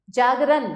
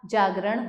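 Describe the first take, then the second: First: जागरण ending in dental n, jaagran; जागरण said as jaagran, tongue at teeth. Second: Said in the usual way. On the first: Shown as a demonstration. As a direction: soften the ण of जागरण to न. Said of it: "नहीं होता". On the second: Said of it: "जागरण होता है".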